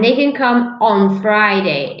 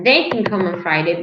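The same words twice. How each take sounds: First: The stress is on the word Friday. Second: The stress is on the word they. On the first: It is about a specific day of the week. "If I stress on Friday" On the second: It is about a specific person. "So if I stress they"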